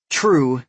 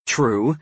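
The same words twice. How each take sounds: First: True said with a falling tune, loud. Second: True said with a rising tune. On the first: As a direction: drop the pitch on True. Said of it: "True fall". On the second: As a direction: lift the pitch on True. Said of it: "True rise". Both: A narrator's reading.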